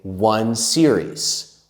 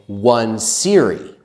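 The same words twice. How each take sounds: First: The word ends with a final S sound. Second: The word ends without a final S sound. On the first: The speaker calls it right. "We say one series. We always have the S" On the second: The speaker calls it wrong. "we don't say"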